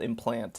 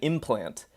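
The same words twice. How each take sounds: First: The stress is on the second syllable. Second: The stress is on the first syllable. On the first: The speaker calls it right. "the emphasis should be on the second syllable" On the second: The speaker calls it wrong. "I kept saying implant"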